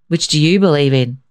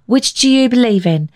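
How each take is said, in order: First: Put-on a lightly gruff old man tossing it back; mildly grumpy grandfather voice; understated gruff question. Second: Put-on high, eager little-boy question; a small boy asking his grandpa; high child's voice. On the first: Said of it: "his grandfather asked gruffly". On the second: Billy asks grandfather.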